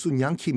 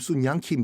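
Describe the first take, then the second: First: The name is said as Sun-yang Kim. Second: The name is said as Sun-yang Kim.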